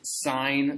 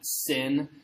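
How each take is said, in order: First: The vowel is a long 'eye' sound. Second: The vowel is a short 'ih' sound. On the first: The speaker calls it right. "please pronounce this sine" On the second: The speaker calls it wrong. "This is not sin"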